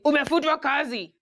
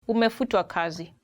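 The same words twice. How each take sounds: First: It is said in a blunt, harsh tone. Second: It is said in a soft, polite tone. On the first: The news is delivered bluntly without care. "those ones who come literally and say" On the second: The news is softened to spare feelings. "sometimes they say it in a polite way"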